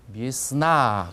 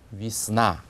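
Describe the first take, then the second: First: The first vowel is a clear 'ye'. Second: The first vowel sounds like 'i'. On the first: The speaker calls it wrong. "그렇게 읽지 않고" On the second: The speaker calls it right. "강세가 없는 예를 약화시켜서 이처럼 해서"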